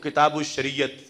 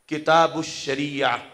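First: The last word ends with a t sound. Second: The last word ends in an open vowel. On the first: "Urdu लहजे में पढ़ेंगे तो" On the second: "वकफ करेंगे"

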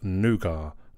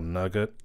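First: It is said in a non-American pronunciation. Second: It is said in an American pronunciation. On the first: The speaker calls it right. "Yes, Nougat, not Nougat" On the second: The speaker calls it wrong. "as a lot of America say"

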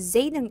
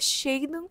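First: The name begins with a z sound. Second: The name begins with a sh sound. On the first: "escreve com Z" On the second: "é Shaden com, com X"

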